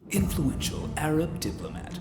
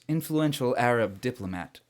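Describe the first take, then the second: First: It is read in a put-on voice. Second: It is read in his normal voice.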